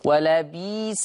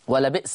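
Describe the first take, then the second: First: A long 'ee' replaces the glottal stop. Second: A glottal stop follows the first vowel of the word.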